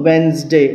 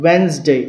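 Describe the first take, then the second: No difference in how they are said.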